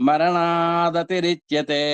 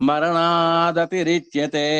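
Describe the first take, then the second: Both takes have the same delivery.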